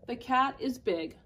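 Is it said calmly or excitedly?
calmly. It is said as a calm, plain statement.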